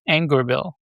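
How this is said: The name is said with an English pronunciation. "you would pronounce it Angerville"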